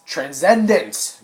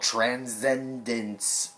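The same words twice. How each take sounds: First: "Transcendence!" drawn out slow, much louder and higher; dramatic title call. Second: Said in the usual way. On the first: Shown as a demonstration. Vlogger showing off the movie title with a dramatic slow, loud call. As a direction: belt out "Transcendence!" like a movie trailer. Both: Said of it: "I said it right".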